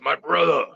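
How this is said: It is said in a put-on wrestler voice.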